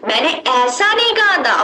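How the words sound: The stress is on ऐसा.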